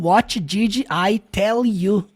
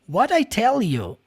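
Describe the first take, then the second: First: Each word, including 'did', is said separately. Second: 'Did' shrinks to a d sound linking the words. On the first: The speaker calls it wrong. "Quadradão" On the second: The speaker calls it right. "Did virou só um D"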